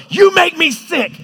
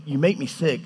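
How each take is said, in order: First: High, loud, drawn-out angry shout; angry spouse. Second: Calm, measured and unshouted; calm, not angry. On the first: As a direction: yell it at a spouse mid-fight. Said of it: "with a fight with your spouse". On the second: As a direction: say it evenly, as a patient God. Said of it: "he's not like us". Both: Acted.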